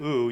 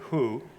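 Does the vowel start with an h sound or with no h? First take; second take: no h; h sound. First: The vowel is said with no h before it. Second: The vowel is said with an h before it. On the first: "instead of oo" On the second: "you can put a breath mark in front of it to do a hu"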